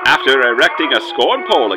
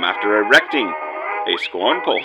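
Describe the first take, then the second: First: There is no pause after the word erecting. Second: There is a pause after the word erecting.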